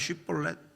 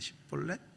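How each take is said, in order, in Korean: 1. 이 단어는 'sh' 소리로 시작합니다. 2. 이 단어는 's' 소리로 시작합니다. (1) "쉿벌렛 해봐" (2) "발음을 잘 못하는 거야? 티가 나는 거야?"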